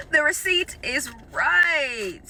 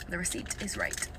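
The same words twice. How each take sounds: First: Slow drawn out. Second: Low disbelieving mutter under the breath; quiet mutter. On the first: Rechecking the grocery receipt, she drags it out slowly. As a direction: drag each word out slowly in disbelief. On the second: Staring at the receipt, she mutters in disbelief. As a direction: mumble it to yourself, stunned. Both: Real, not acted.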